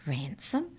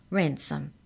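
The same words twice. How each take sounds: First: "Ransom" said as a question, voice rising at the end. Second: "Ransom" said as a firm statement, no question in it; confirming. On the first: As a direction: query the word "Ransom" with a rising tune. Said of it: "asked Molly". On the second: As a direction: confirm with "Ransom", settled rather than asking. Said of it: "confirmed the mouse". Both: A narrator's reading.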